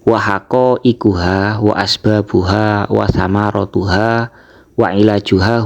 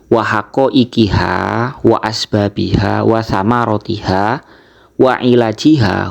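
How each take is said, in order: First: The vowel before each -ha ending is u. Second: The vowel before each -ha ending is i. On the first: These nouns are read as new subjects. The speaker calls it wrong. "Beliau bacanya begini" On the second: These nouns are joined to the preceding governed noun. The speaker calls it right. "mestinya pemahaman atau cara bacanya begini"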